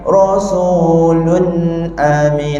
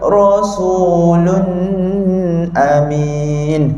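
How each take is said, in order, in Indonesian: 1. Dengungan sengau pada 'lun' pendek. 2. Dengungan sengau pada 'lun' ditahan panjang. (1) "Dia ada lama sikit" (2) "saya buat dengung panjang"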